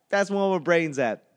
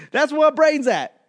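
First: Said in the usual way. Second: Higher and louder, exclaimed; exclaimed punchline. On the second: Acted. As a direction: shout the punchline, then repeat it. Punchline, repeated twice.

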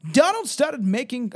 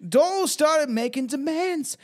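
First: Put-on higher, louder stab at a British accent; wavering British accent. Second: High, slow, put-on British accent. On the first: Reader trying a voice for Shirley's account, wavering British accent. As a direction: try a British accent that isn't settled yet. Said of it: "I keep changing her voice". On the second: Reader voicing Shirley's account of Donald, put-on British accent. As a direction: commit to a drawn-out British accent, pitched up. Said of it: "I got the British".

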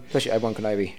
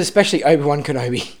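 First: Said in the usual way. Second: Said again louder and clearer; repeated louder. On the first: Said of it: "No, I said especially Obi-Wan Kenobi". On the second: Shown as a demonstration. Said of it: "No, I said".

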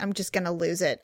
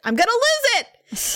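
First: Low, softer muttered warning; holding it in; restrained threat. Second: High-pitched, drawn-out exasperated cry; hammed-up losing it; mock outburst. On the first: Retold or imitated. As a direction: say it under control, pitched down. Retelling her threat, first take. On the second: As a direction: blow up theatrically, stretching it high. Threat repeated as an outburst.

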